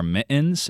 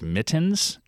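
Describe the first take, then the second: First: MITTENS with the T dropped, "mi'ens"; glottal stop. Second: Said in the usual way. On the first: Shown as a demonstration. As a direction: catch MITTENS in the throat instead of saying T. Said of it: "dropping their T's". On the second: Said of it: "instead of mittens".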